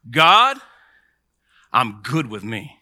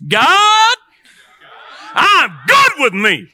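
First: Said in the usual way. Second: High, stretched-out shout to God; loud, drawn-out rallying cry; rousing shout. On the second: Shown as a demonstration. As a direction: holler it slowly with full force. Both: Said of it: "you gotta say it like this".

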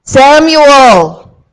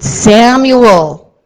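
First: Louder and higher, an urgent cry of the name; booming urgent call; exclaimed call. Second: A strong, loud call of the name; loud summoning call. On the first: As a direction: shout Samuel with exclamation points. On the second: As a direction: call Samuel firmly across the room. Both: Acted. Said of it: "And there's exclamation points".

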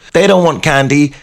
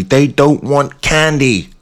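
First: Said in the usual way. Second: "don't" leaned on, said slowly and dragged out; slow stress. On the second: Acted. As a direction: drag "they don't want candy" out with weight on "don't". Deadpan punchline, slowed.

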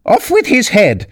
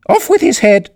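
First: Shrill high royal shriek; shouting. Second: Shrill high royal shriek; furious shout. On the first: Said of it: "went stamping about and shouting". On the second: Queen's stock order. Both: A narrator's reading. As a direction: bellow it like a raging queen.

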